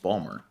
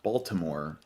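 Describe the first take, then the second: First: It is squeezed into two short syllables. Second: All three syllables are clearly pronounced. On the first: The speaker calls it right. "It's just Balmer" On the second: The speaker calls it wrong. "It's not Baltimore"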